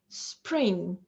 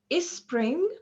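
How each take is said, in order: First: There is no extra vowel anywhere. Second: An extra vowel is added before the s. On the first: The speaker calls it right. "we have to pronounce them without any intrusive vowel sounds" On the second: The speaker calls it wrong. "neither before them nor between them. So we don't say"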